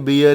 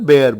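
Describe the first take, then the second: First: The vowel sounds like the one in 'beer'. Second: The vowel sounds like the one in 'bare'. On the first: The speaker calls it wrong. "Generally हम इसे बियर ही बोलते हैं" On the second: The speaker calls it right. "आपको इसे बियर ना बोलकर बेयर बोलना चाहिए"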